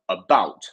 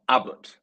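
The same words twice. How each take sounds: First: The stress is on the second syllable. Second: The stress is on the first syllable. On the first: The speaker calls it right. "we have our stress in the second syllable" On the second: The speaker calls it wrong. "not about"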